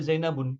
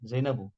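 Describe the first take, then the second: First: The word ends with an added n sound. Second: The word ends in a plain vowel. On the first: The speaker calls it wrong. "Gak boleh Zainabun" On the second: The speaker calls it right. "karena hurufnya lebih dari tiga"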